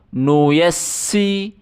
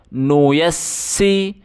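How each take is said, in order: Both takes have the same delivery.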